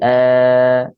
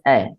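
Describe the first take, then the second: First: The vowel is held longer than one count. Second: The vowel is short, lasting one count. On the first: The speaker calls it wrong. "So I don't say a, no, it's incorrect" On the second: The speaker calls it right. "We say just a, one count"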